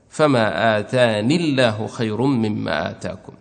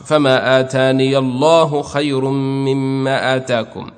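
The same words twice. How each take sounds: First: No 'ya' sound is heard before 'Allah'. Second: A 'ya' sound with a short 'a' precedes 'Allah'. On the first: "الباقي ليس لهم ياء، يحذفونها وصلا ووقفا" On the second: "أثبتوا هذه الياء ثم فتحوا ياءها"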